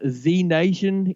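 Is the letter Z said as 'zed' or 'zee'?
zee. The letter is said 'zee', American style.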